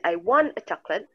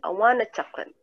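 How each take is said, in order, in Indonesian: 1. Kata want dan a diucapkan terpisah. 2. Kata want dan a diucapkan disambung.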